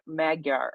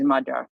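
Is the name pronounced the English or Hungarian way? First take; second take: English; Hungarian. First: The name is said with an English-style pronunciation. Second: The name is said with a Hungarian-style pronunciation. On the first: The speaker calls it wrong. "you guys, I think, typically call him Magya Maga Magyar or something like that" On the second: The speaker calls it right. "but he's Magyar, yeah. ... that's the Hungarian pronunciation"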